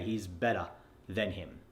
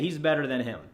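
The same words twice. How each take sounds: First: The ER sound in better is dropped entirely. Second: The ER sound in better is light but present. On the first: The speaker calls it wrong. "That way you're not going" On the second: The speaker calls it right. "make it subtle in your text so it sounds like"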